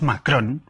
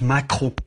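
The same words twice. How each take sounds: First: "Macron" with Spanish sounds, full n at the end; Spanish pronunciation. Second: "Macron" in a French accent, nasal ending; French pronunciation. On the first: Speaker showing what Spaniards call the president, Spanish phonemes. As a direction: say "Macron" as mak-RON, tapped r. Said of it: "son los fonemas del castellano". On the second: Speaker showing what Spaniards don't say, French accent. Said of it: "esto de las nasales". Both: Shown as a demonstration.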